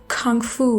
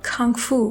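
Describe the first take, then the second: No difference in how they are said.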